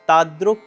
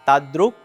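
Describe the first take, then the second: Both takes have the same delivery.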